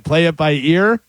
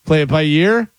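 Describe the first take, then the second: First: "play it by ear", no Y sound; "by ear", EER with nothing before it; correct saying. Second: "play it by year" with a Y; "by year", YEER in place of ear; mistaken saying. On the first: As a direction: start "ear" on the vowel, rising. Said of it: "instead of saying it". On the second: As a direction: add a Y glide to make "year", rising. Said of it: "instead of saying it, play it by ear". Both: Shown as a demonstration.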